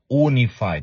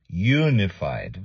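First: The first syllable does not sound like 'you'. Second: The first syllable sounds like 'you'. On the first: The speaker calls it wrong. "not unified" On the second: The speaker calls it right. "is you, unified, very good"

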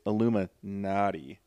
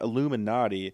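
First: The ending sounds like the word 'naughty'. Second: The ending sounds like 'nah-tee'. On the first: "They spelled it naughty" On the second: "it's not Illuminati"

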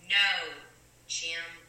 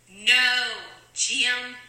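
First: It is said softly. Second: It is said loudly.

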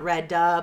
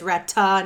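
First: The middle consonant is a soft D-like sound. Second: The middle consonant is a clear T sound. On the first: The speaker calls it wrong. "not Redda" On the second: The speaker calls it right. "my name is Rhetta"

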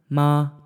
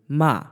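First: The pitch stays high and level. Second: The pitch falls sharply from high to low. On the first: "First tone" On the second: "the fourth tone basically goes from high to low"

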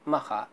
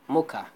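First: It has a throaty kha sound and open vowels. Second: It has a plain k sound and an o vowel. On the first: This is the original Arabic name of the port. "we are Arabic people, we pronounce it Makha" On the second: This is the name as used by non-Arabic speakers. "non-Arabic native speakers, they call it Mocha"

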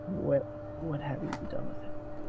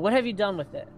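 First: It is said in the speaker's normal voice. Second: It is said in a put-on character voice.

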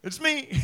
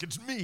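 First: It is said in a high, lilting voice. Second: It is said in a deep, booming voice.

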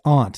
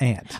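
First: The vowel rhymes with 'haunt'. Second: The vowel rhymes with 'ant'. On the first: The speaker calls it right. "it's aunt, ... if you look at the word haunt" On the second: The speaker calls it wrong. "not aunt"

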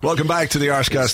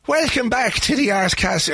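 First: It is said in the speaker's normal accent. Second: It is said in a put-on Irish accent.

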